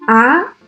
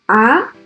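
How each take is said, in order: First: The pitch rises from low to high. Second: The pitch rises from low to high.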